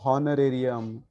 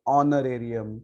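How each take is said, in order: First: The word begins with an h sound. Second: The word begins directly with a vowel. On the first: The speaker calls it wrong. "we do not use to pronounce it like" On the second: The speaker calls it right. "हम लोग इसको ... ऐसे ऐसे बोलते हैं"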